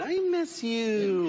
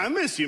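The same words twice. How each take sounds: First: Said tenderly, with the pitch sloping down. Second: Said casually and gruffly, without tenderness. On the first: The feeling is sincere and openly affectionate. "that's how you say it. I miss you, like sloping down" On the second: The affection is played down to sound less intimate. "I gotta go like, hey, yeah"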